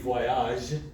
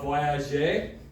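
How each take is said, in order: First: The word ends without a final vowel sound. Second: The final vowel is clearly pronounced. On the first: "Without the E, it'd be voyage" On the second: "we pronounce that E there"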